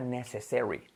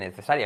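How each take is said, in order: First: The stress is on the first syllable. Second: The stress is not on the first syllable. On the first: The speaker calls it right. "con acentuación la primera" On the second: The speaker calls it wrong. "pero no se dice necessary"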